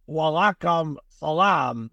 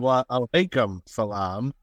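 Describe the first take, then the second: First: The greeting is run together and clipped. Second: The greeting is said with every syllable full. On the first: The speaker calls it wrong. "talking about the mispronouncing foreign words" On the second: The speaker calls it right. "No, it's"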